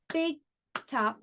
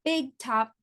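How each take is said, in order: First: "Big top" as two separate beats; clapped-out syllables. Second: Said in the usual way. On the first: Shown as a demonstration. Teacher claps out the word, "Big top" split in two. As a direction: leave a clear gap between "Big" and "top". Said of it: "I'm gonna clap it out". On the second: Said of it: "Let's try this one".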